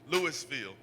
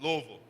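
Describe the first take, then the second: First: It is said the way outsiders say it. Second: It is said the way locals say it. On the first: The speaker is not from there. The speaker calls it wrong. "People that are not, not from there, they say" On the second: The speaker knows the city. The speaker calls it right. "It's Louisville"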